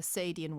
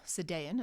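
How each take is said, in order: First: Sadian said SAY-dee-un; first pronunciation. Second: Sadaean said suh-DAY-un; alternative pronunciation. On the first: Lecturer naming an essay to class, Sadian pronounced SAY-dee-un. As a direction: stress the first syllable of Sadian, a long "ay". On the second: Lecturer giving some people's variant, Sadaean pronounced suh-DAY-un. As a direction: stress the middle syllable of Sadaean, "DAY". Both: Shown as a demonstration. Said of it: "as some people pronounce it".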